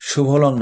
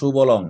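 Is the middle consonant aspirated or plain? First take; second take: aspirated; plain. First: The middle consonant is an aspirated bh. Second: The middle consonant is a plain b. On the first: The speaker calls it wrong. "এটা ভ না" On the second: The speaker calls it right. "এটা ব হবে"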